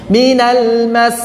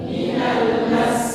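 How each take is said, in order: First: Slow "Minal mas" with the s held; model reading. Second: Soft whispered "Minal mas"; student repeat. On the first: Shown as a demonstration. Teacher reading it for students to repeat. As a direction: stretch the doubled s of "mas". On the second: Real, not acted. Student repeating the teacher's model in a whisper. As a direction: breathe it quietly back.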